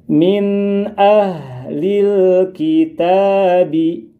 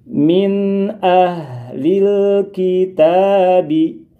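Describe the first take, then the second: The two takes are said the same way.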